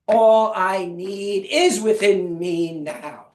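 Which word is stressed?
is. The stress is on "is".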